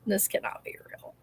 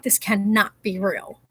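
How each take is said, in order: First: Breathless awed whisper. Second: Said in the usual way. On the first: Real, not acted. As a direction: whisper it in disbelief. Repeats the line in awe.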